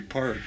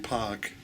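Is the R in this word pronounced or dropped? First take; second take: pronounced; dropped. First: The R after the vowel is pronounced. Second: The R is dropped, Rhode Island style.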